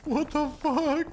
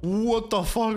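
First: Slow, high drawn-out what the fuck; drawn-out disbelief. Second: Said in the usual way. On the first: Real, not acted. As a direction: stretch it out in disbelief.

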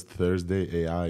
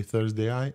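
First: "Thursday A I" with A and I as separate letters; "Thursday A I" as "Thursday ay-eye"; letters spelled out. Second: "Thursday Eye" with one syllable, "eye", after Thursday; "Thursday Eye" run together like a name. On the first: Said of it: "Everybody else says Thursday A I". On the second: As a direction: end "Thursday Eye" on a single "eye". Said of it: "picked up on the way that I say". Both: Shown as a demonstration.

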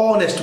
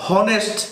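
First: অনেস্ট with a silent h, starting on o; right honest, silent h. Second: হনেস্ট said with a sounded h; wrong take, h sounded in হনেস্ট; wrong honest with h. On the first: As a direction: drop the h: অনেস্ট. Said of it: "অনেস্ট বলি". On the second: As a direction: say হনেস্ট with the h voiced, slowly. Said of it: "হনেস্ট বলি না". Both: Shown as a demonstration.

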